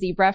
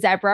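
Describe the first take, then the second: First: It is said in an American accent. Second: It is said in a British accent.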